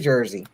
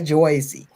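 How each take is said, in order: First: The word is said in a plain, natural local accent. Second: The word is said in an exaggerated, stereotyped accent. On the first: This is how locals actually say it. The speaker calls it right. "We say Jersey" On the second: This is how outsiders imagine locals say it. The speaker calls it wrong. "I don't say Jersey"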